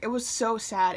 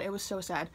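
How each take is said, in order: First: Said in the usual way. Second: "so sad" dropped much softer; softer repeat. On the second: Real, not acted. Repeating to viewers how sad it was, much softer. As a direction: let the repeat fall away quietly.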